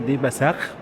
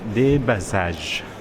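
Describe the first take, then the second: First: The last consonant is a guttural kh sound. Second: The last consonant is a soft j sound. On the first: "ممكن يكون بالهولندي مثلا دي باساخ" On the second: "اسمه دي باساج"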